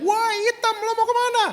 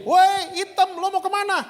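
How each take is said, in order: First: Much higher, harder jeering mock shout; the second kid outdoes the first, shrieking the taunt; louder imitated bully yell. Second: High taunting mock shout; imitated bully's yell. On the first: A second schoolmate yelling the insult, higher mock shriek. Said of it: "lebih kenceng teriaknya". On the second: A schoolmate yelling at his daughter, high mock taunt. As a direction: call out a jeering kid's insult from across the schoolyard. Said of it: "Temennya teriak begini".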